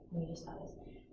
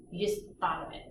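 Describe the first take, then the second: First: Whisper. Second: Said in the usual way. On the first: Shown as a demonstration. Teacher whispers the reminder to the class, softly. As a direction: repeat it again in a breathy whisper, much softer. Teacher echoes students' thinking.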